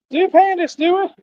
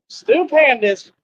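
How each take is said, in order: First: Much higher, quicker squeal of the name; squeaky name call. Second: High, slow, drawn-out call of the name; sing-song name call. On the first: Vlogger squealing Stu Pandas again, even higher and quicker. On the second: Vlogger calling out to Stu Pandas, high slow sing-song. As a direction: stretch the name out high and slow like a playful cheer. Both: Acted.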